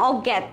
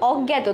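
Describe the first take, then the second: First: The word ends on a bare consonant. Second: The word ends with an 'o' vowel. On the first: The speaker calls it wrong. "আমি বলছি না অজ্ঞাত, এরকম কোনো word হয় না" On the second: The speaker calls it right. "লাস্টে তয় ওকারে"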